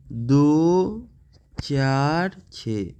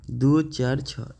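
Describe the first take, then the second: First: Very slow, drawn-out digits with gaps; digit-by-digit reading. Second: Said in the usual way. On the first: Shown as a demonstration. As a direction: read दो, चार, छः one by one, stretching each. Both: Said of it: "इस तरह से पढ़ते हैं".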